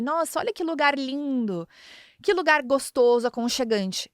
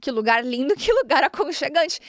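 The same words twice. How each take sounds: First: Hinting wife. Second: Literal hearing. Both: Shown as a demonstration. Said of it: "o que que ele escutou".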